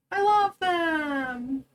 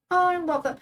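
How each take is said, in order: First: Slow, drawn-out tearful coo; melting over her new babies; tearful gush. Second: Said in the usual way. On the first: Real, not acted. Streamer coos tearfully over the newborn Sims babies, slow and drawn out.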